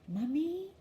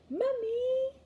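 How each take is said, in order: First: The word is said very quietly. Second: The word is said a little louder.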